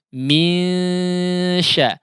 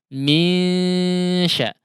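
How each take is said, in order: First: The nasal is light, with air through mouth too. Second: The nasal is light, with air through mouth too.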